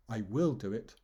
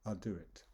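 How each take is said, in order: First: WILL punched in "I will do it"; stress on WILL. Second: Said in the usual way. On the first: Shown as a demonstration. Teacher demonstrating how a promise sounds, stress on WILL. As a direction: lean on "will" like a firm promise. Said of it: "I'm stressing the word will". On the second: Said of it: "Whereas the normal one".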